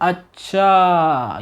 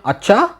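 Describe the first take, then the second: First: It sounds understanding. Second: It sounds surprised.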